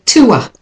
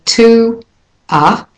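First: "to a" with a gliding w between the vowels, "tuwa"; linked "to a". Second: Said in the usual way. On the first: Shown as a demonstration. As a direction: join "to a" smoothly with a w sound. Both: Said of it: "but instead I'm going to say to a".

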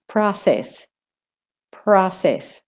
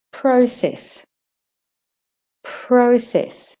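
First: "process" in American, "prah-sess"; American accent. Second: Higher "process" with "oh", as "proh-sess"; non-American vowel. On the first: Teacher models for learners, American "process". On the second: Teacher models before the American version, "proh" in "process". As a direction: round "pro" in "process", falling after. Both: Shown as a demonstration. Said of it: "if you're doing the American".

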